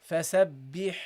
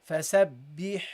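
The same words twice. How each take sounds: No difference in how they are said.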